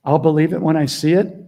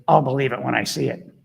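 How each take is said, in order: First: Louder, rising on the final "it"; emphatic quote. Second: "I'll" stressed, a lightly voiced dismissive doubter; mocking skeptic. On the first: Retold or imitated. Coach making a point about skeptics, emphatic and loud. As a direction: lean hard on "I'll believe it when I see it", rising at the end. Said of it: "when you say". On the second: Coach imitating a doubting commenter, mildly dismissive. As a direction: toss "I'll believe it when I see it" off as a mild skeptic. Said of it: "people that goes".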